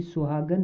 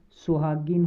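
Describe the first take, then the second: First: सुहागन with an 'a' in the last syllable, ending "-gan"; wrong form सुहागन. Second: सुहागिन with a short 'i' in the last syllable, ending "-gin"; correct form सुहागिन. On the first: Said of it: "सुहागन नहीं होता". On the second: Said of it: "सुहागिन होता है". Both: Shown as a demonstration.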